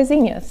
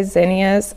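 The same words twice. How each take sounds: First: Zinnias said the speaker's Oklahoma way; "zinnias" as ZEEN-yuhz; Oklahoma pronunciation of zinnias. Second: Zinnias said as others say it, not the Oklahoma way; "zinnias" as ZIN-ee-uhz; other pronunciation of zinnias. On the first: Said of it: "for some reason we all say zinnias". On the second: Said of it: "Some people say zinnias". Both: Shown as a demonstration.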